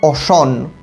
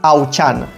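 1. 'ch' wymawia się jak miękkie 'sh'. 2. 'ch' wymawia się tak jak w 'church'. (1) "Mamy Auchan" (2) "po hiszpańsku CH czyta się takie ci"

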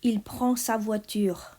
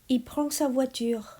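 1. ทุกคำพูดเต็มรูป 2. คำถูกย่อและต่อกัน

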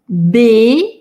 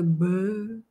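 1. Согласный напряжённый и взрывной. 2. Согласный мягкий и вялый. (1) "А тут бей" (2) "русскоязычный он такой б, вялый"

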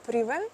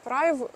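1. Слово закінчується наголошеним «é» у французькому стилі. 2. Слово закінчується без наголошеного «é» у французькому стилі. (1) "читати потрібно на французький манер" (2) "ви можете мене поправити і сказати, що читається"

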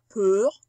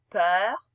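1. La voyelle est un eu fermé. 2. La voyelle est un eu ouvert. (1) "On ne dit pas peur" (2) "on dit peur, comme majeur"

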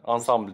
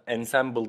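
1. Kelime Fransızca bir şekilde telaffuz ediliyor. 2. Kelime İngilizceye benzer bir şekilde telaffuz ediliyor. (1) "Ensemble diye okunur" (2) "hayatta o şekilde okunmaz yani"

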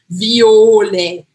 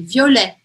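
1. A primeira vogal é forçada e exagerada. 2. A primeira vogal é relaxada, com a tônica no fim. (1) "Mas também não é violet, né? Não preciso forçar" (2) "Então é um intermediário aí"

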